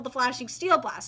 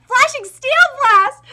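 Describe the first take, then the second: First: Said in the usual way. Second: High, loud, slow battle cry; shouted attack name. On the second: Acted. Fighter unleashes his attack, shouting the move. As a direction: bellow the move like an anime hero.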